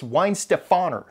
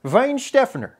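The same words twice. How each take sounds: First: Weinstefaner as wine-steh-FAH-ner; higher-pitched Weinstefaner, leaning on FAH; disputed pronunciation. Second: Weinstephaner as VINE-SHTEF-en-er, high then falling; high-pitched, emphatic German Weinstephaner, stress on SHTEF; German pronunciation. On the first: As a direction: cite Weinstefaner with English w, stress on FAH. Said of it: "I really don't think it's". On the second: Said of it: "from German resources is". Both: Shown as a demonstration.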